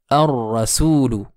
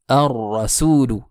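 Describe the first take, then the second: The two takes are said the same way.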